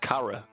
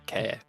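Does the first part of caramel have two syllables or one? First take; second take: two; one. First: The first part has two syllables, ca-ra. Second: The first part is one syllable, like care. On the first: The speaker calls it right. "It's cara" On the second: The speaker calls it wrong. "not care"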